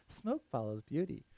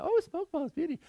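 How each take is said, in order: First: Said in the usual way. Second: Much higher, lightly voiced mom teasing; sing-song mom tease; imitating mom. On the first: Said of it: "you hate it when people say it to you". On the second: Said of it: "My mom's always good at".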